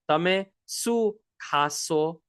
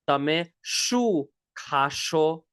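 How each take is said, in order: First: The question word starts with a plain s sound. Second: The question word starts with an sh sound. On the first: "often pronounced as su" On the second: "You could pronounce this as well"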